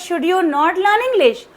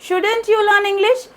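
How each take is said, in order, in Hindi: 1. not शब्द अलग और पूरा बोला जाता है। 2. not शब्द should के साथ जुड़कर संकुचित हो जाता है। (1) "पहले फुल फॉर्म यूज किया हुआ है" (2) "इसको शॉर्ट फॉर्म में बोल दिया"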